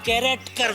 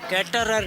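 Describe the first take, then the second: First: It is said like 'character', with the k sound. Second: It is said like 'caterer', without the k sound. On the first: The speaker calls it right. "उसको कैरेक्टर बोलते हैं" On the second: The speaker calls it wrong. "कैटरर नहीं"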